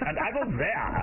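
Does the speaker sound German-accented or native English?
German-accented. It is spoken with a German-sounding accent. The speaker calls it wrong. "Now what is this inflection you're giving it?"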